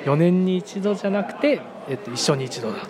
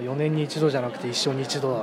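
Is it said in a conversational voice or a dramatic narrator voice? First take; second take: narrator; conversational. First: It is said in a dramatic narrator voice. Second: It is said in a plain conversational voice.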